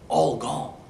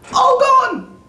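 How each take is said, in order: First: It is said at a normal volume. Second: It is screamed loudly.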